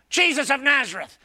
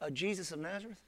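First: It is said boldly and with confidence. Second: It is said meekly and hesitantly. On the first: The soldiers are sure of themselves. "I bet they said it like this. When he said the first time" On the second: The soldiers have been humbled. "I bet the second time they said"

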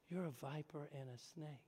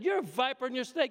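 First: It is said gently and nicely. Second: It is said harshly and directly.

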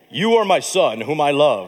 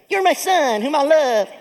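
First: The voice is low, deep and booming. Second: The voice is high, soft and lisping. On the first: "I like the deep voice better" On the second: "What if God sounded like Mike Tyson?"

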